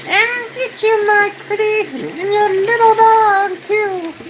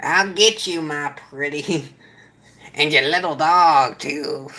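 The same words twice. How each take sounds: First: Very high, slow squeaky cackling witch; squeaky witch impression. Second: A weak, barely voiced Wicked Witch line; half-hearted try at the witch; bad witch impression. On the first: Streamer retries the witch quote in a very high squeaky voice. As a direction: shriek it like a storybook witch. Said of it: "that was horrible, too". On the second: Streamer attempts the witch line after mentioning witch fingers, voice barely changed. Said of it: "That was a horrible impression".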